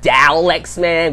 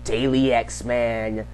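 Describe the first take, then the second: First: The first syllable sounds like dah. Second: The first syllable sounds like day. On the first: "which is what Mick Foley called me" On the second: "which is what um Darius said"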